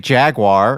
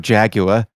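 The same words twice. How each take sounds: First: It is said in a plain American accent. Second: It is said in a fancy British accent. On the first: "which I believe is the way to say it" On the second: "people that wanna sound fancy and British go"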